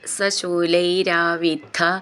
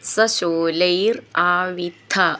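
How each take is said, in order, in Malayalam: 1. വാക്കുകൾ ചേർത്ത് ഒറ്റ വാക്കായി പറയുന്നു. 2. വാക്കുകൾ വേറെവേറെ വാക്കുകളായി പറയുന്നു.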